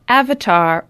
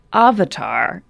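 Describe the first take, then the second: First: "Avatar" with the flat A of "cat"; the usual American AV-uh-tar for "Avatar"; first-syllable short A. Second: "Avatar" with the open A of "father"; broad AH opening on "Avatar"; broad first A. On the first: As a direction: say "Avatar" starting AV, as in "have". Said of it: "it's not Avatar or Avatar". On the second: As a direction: say "Avatar" starting AH, as AH-vuh-tar. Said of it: "It's both". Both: Shown as a demonstration.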